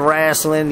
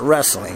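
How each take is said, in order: First: The word is said in a country-style, drawled way. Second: The word is said in a plain, standard way. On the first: The speaker calls it wrong. "I don't say wrestling, you know, yeehaw" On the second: The speaker calls it right. "I pronounce it wrestling"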